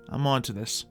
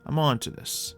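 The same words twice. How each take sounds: The two takes are said the same way.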